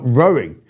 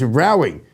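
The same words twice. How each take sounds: First: It is said like the word for boating. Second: It is said like the word for arguing. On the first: It refers to moving a boat with oars. The speaker calls it wrong. "as in a boat" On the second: It refers to an argument. The speaker calls it right. "as in an argument"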